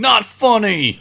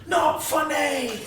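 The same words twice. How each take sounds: First: High, loud indignant yelp; John Mulaney impression. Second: High, slow, loud indignant yelp; John Mulaney impression. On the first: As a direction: shriek it, offended. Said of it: "John Mulaney going". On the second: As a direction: drag it out, mock outraged. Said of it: "all I've heard in my head is John Mulaney going".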